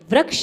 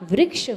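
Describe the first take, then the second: First: The r syllable sounds like plain 'ra'. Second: The r syllable sounds like 'ri'. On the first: The speaker calls it wrong. "नहीं होता" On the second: The speaker calls it right. "होता है"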